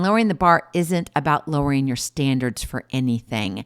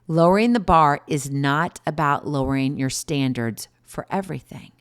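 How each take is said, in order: First: It is said at a normal pace. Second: It is said slowly.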